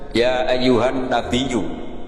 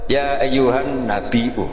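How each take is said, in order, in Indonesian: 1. Diucapkan dengan bunyi y setelah nabi. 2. Diucapkan dengan hamzah setelah nabi. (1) "Imam Asim hamzah menjadi ya" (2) "ini mahmusullah. Sehingga dia baca tetap"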